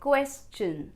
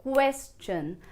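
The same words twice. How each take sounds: Both takes have the same delivery.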